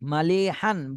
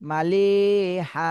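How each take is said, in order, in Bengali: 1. শব্দটি "n" ধ্বনি দিয়ে শেষ হয়। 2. শব্দটি একটি দীর্ঘায়িত "a" স্বরে শেষ হয়। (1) "বানানোর সময় হান বলতে হবে" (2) "উচ্চারণ করার সময় মালি হা"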